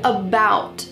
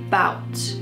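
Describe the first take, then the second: First: The word is said fully with its first syllable. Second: The word is said without its first syllable.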